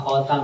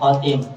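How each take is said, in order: First: The second syllable has the vowel 'a'. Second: The second syllable has the vowel 'i'. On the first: It means a ring or adornment. The speaker calls it right. "bagusnya dibaca khotam" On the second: It means the one who closes or ends. The speaker calls it wrong. "daripada dibaca khotim"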